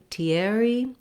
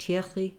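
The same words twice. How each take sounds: First: It is said with an American R and vowels. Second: It is said with a French throaty R. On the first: "the English pronunciation of this name" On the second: "we have the French R that's back in the throat"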